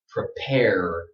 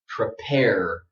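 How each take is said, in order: First: American accent with a strong final R. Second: American accent with a strong final R.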